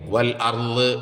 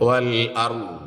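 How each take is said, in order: First: The final consonant ends with an echoing bounce. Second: The final consonant stops flat without a bounce. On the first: The speaker calls it wrong. "എന്നല്ല" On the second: The speaker calls it right. "ഇത് ഖുതുബ് ചെയ്തപ്പെട്ട അക്ഷരമല്ല"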